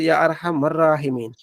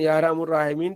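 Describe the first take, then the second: First: The vowel after arham is a. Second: The vowel after arham is u. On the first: The speaker has studied grammar. The speaker calls it right. "अगर इमाम साहब ने नहव पढ़ी होती तो" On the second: The speaker has not studied grammar. The speaker calls it wrong. "इमाम साहब ने नहव नहीं पढ़ी"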